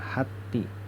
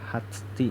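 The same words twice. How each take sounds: First: The t is plain, with no breathy release. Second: The t has a breathy, airy release. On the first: The speaker calls it right. "ini bacanya hati" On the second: The speaker calls it wrong. "tidak boleh hati"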